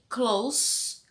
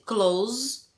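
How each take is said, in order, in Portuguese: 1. Termina com som de s, chiado. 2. Termina com som de z, vibrado. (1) "com som de S, né? Dois S's, que é perto" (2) "que é fechar"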